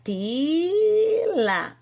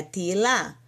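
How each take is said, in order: First: "tila" with a very long, high "ti", then a short "la"; long held vowel. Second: Said in the usual way. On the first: Shown as a demonstration. Teacher showing where the vowel goes, long held vowel. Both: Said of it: "Então, vai ficar tila".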